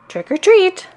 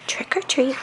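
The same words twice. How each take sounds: First: It is said a little louder. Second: It is said very softly.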